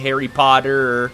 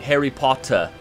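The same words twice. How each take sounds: First: The double T in Potter sounds like D. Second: The double T in Potter sounds like T.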